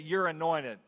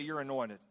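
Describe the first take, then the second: First: It is said with sassy, forceful attitude. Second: It is said in a plain, neutral way.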